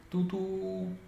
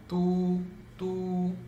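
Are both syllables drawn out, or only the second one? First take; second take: second only; both. First: Only the second syllable is drawn out. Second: Both syllables are drawn out. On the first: It imitates a bus horn. The speaker calls it right. "seria tu, tu, entendeu?" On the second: It imitates a train. The speaker calls it wrong. "Não é tu, tu, igual o de cima"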